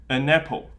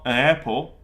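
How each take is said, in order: First: "An apple" joined as a-napple; linked n. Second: "an apple" split, a gap before apple, no linking n; unlinked vowels. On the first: Teacher showing how English links words, linked n. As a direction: attach the n of "An" to the start of "apple". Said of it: "attach the N to the beginning". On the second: Teacher showing what English does not do, unlinked vowels. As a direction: keep "apple" starting on its bare vowel. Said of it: "It's not". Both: Shown as a demonstration.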